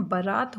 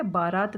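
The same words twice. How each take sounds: First: बारात with a short a in the first syllable, ba-raat; correct pronunciation. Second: बारात with a long aa in the first syllable, baa-raat; wrong pronunciation. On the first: Teacher modelling the right form for students: बारात with a short first a. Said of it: "हम बोलते ही गलत हैं". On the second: Teacher showing students the common mistake: बारात with a long first aa. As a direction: stretch the first vowel of बारात into aa. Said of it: "बारात नहीं होता". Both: Shown as a demonstration.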